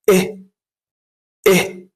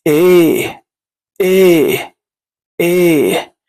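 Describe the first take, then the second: First: Short "إيه", a quick unstretched "eh"; first E sound. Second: Long "إيه", held as a falling "eyy"; second E sound. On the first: Quick review of the first pronunciation before practice, short "إيه". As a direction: say "إيه" briefly and stop. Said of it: "النطق الأول". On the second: Quick review of the second pronunciation before practice, long "إيه". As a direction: stretch the vowel of "إيه" firmly. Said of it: "النطق التاني". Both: Shown as a demonstration.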